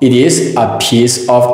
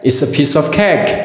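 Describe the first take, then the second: First: The words 'it is' are said separately. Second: The words are contracted and linked into 'it's a'.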